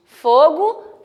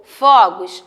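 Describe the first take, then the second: First: FOGO with a closed ô, fô-go; FOGO, stressed o close-mid. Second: FOGOS with an open ó, fó-gos; FOGOS, stressed o open-mid. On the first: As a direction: say "fogo" with rounded ô. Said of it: "A tonicidade dela vai ser fechada". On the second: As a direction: say "fogos" with a wide ó. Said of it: "ele vai dar o som de aberto". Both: Shown as a demonstration.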